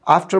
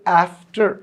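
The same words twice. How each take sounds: First: The word is said with an Indian accent. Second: The word is said with an American accent. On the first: "हम हिंदुस्तानी लोग अक्सर इसको आफ्टर बोलते हुए" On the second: "European या जो अमेरिकी लोग हैं वो इसे आफ्टर बोलते हैं"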